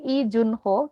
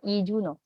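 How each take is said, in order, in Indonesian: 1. Huruf h sebelum suku kata terakhir dilafalkan. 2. Huruf h sebelum suku kata terakhir tidak dilafalkan. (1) "alih-alih Ijunho" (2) "kita akan baca dengan Ijuno"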